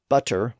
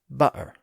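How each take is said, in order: First: The middle consonant is a clear T sound. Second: The middle consonant is a glottal stop.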